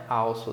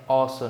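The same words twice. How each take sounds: First: "also" mispronounced with a "au" glide; wrong "also". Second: "also" with an open, short "ó" first syllable; correct "also". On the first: Teacher showing students the mistake, "au" in "also". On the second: Teacher correcting students, open "ó" in "also". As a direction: say "also" as "ósso", no w glide. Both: Shown as a demonstration. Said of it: "não é also".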